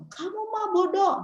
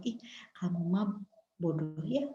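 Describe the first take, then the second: First: High-pitched acted berating; scolding parent. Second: Soft, low-key insult with a smile; smiling put-down. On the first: Toxic parent calling child stupid, high scolding. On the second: Shown as a demonstration. Parent belittling a child, smiling and soft. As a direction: insult them quietly, as if smiling. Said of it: "misalnya dengan senyum-senyum".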